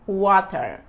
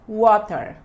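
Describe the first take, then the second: No difference in how they are said.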